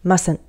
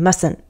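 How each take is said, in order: No difference in how they are said.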